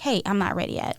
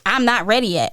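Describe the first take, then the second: First: It is said in a calm, relaxed way. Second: It is said with an annoyed attitude.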